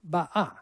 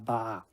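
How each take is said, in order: First: A glottal stop separates the two vowels. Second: The two vowels run together without a stop. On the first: This is the historical, careful pronunciation. "you can put a nice little glottal stop in there and say ba'a" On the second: This is the rushed everyday street pronunciation. "people are too rushed to do that. They just say"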